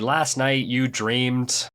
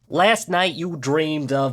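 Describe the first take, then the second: First: It is said in his plain own voice. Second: It is said in a Joey Wheeler voice.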